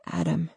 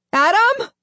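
First: Grieving whisper. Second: High, loud questioning yell; shouted call. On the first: Grieving lost friend. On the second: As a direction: call his name down the pit. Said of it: "shout into the gulf". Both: A narrator's reading.

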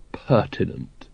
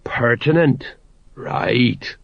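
First: Low, soft, tentative word after a pause; hesitant. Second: Sagely nodding sergeant. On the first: Vimes unsure what he is asking of the sergeant, hesitant. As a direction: offer PERTINENT lower and quieter, feeling for the word. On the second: Sergeant repeating Vimes's word back to him, sagely knowing. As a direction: echo the word as if wisely understanding. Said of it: "The sergeant nodded wisely". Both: A narrator's reading.

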